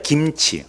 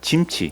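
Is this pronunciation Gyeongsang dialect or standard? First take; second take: standard; Gyeongsang. First: It is said with the standard, open-mouthed pronunciation. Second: It is said with the Gyeongsang palatalized pronunciation. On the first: "김치 하면 입을 힘들어요" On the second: "입 많이 안 벌려도 되거든요"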